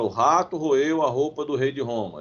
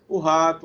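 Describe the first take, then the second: First: The sentence flows without any pause. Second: There is a pause with a breath after 'o rato'. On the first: The speaker breathes normally. "Então ele não fala" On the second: The speaker is short of breath. "aí para um pouquinho, respira"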